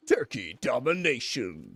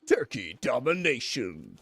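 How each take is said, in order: First: It is said in a put-on announcer voice. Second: The same.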